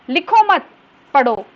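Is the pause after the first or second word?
second. The pause comes after the second word.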